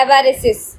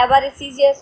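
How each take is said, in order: First: एवारिसिस ending in one short syllable, "-sis". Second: एवारिसिस with the ending drawn into "-si-yas"; expected spelling-style ending. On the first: Teacher showing the exact pronunciation, एवारिसिस with short "-sis". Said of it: "इसका pronunciation कैसे करते हैं". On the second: Teacher voicing what students expect, एवारिसिस ending "-si-yas". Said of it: "आपको लग रहा होगा कि ma'am गलत पढ़ रही है". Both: Shown as a demonstration.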